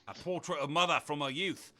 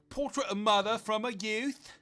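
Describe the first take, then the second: First: It is said in a gruff Australian accent. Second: It is said without an Australian accent. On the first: The speaker calls it right. "I'm Roadhog, ain't I? Oh, it's me, Roadhog" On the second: The speaker calls it wrong. "That's not Australian"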